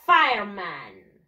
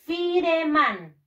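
First: "Fireman" drawn out slowly as FIRE-man; model English pronunciation. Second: "Fireman" read as written in Spanish, fi-re-man; spelling pronunciation. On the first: Teacher modelling for pupils to repeat, "Fireman" as slow English FIRE-man. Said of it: "voy a pronunciarlo de esta manera". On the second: Teacher showing pupils how it is written, "Fireman" as fi-re-man. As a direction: sound out every letter of "Fireman", fi-re-man, slowly. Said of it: "¿Cómo se escribe bombero en inglés?". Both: Shown as a demonstration.

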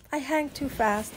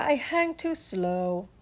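First: Said in the usual way. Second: Slow, drawn-out turtle delivery; leisurely turtle drawl. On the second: Acted. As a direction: drag the words out sluggishly.

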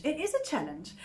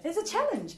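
First: "is" said in full and stressed. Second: Said in the usual way. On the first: Real, not acted. Preacher admitting to the congregation it is hard, stressing "is". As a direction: lean on "is" to concede the point. Restates the same line for emphasis.

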